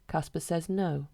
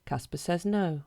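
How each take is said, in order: Both takes have the same delivery.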